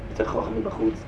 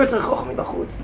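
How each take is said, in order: First: Choch mi bachutz repeated low and soft; quiet echo of the point. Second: Said firmly with a slight lift, choch mi bachutz clear; first firm statement of the point; stated firmly. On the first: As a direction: drop the voice and echo it to yourself. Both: Shown as a demonstration.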